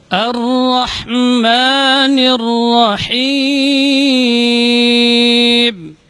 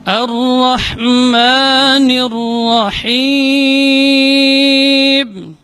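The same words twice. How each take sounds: No difference in how they are said.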